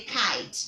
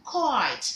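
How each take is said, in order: First: Kite with an open "eye" vowel; rejected pronunciation. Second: Kite with a rounded "koyt" vowel; model pronunciation. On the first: Teacher shows pupils what to avoid, open-vowel kite. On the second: Teacher drills pupils on kite, rounded-vowel model pronunciation. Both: Shown as a demonstration. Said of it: "You don't say kite".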